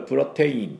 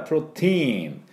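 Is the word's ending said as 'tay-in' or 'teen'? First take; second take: tay-in; teen. First: The ending is said as two syllables, tay-in. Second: The ending is one long syllable, teen. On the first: This is how Latin speakers would read it. The speaker calls it wrong. "多分ラテン系の人はこれプロテインとか読むんでしょうけど" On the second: This is the English pronunciation. The speaker calls it right. "英語の場合プロテイン、このTI はE って伸ばすだけなんです"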